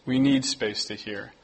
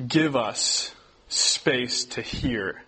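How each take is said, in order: First: Said in the usual way. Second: Very slow, each word stretched; slow, drawn-out question. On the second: Shown as a demonstration. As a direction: let the question hang slowly.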